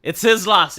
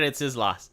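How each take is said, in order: First: Said in the usual way. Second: It's his loss, dropped softer and lower; quiet repeat. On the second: Real, not acted. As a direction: mutter it to yourself, softer.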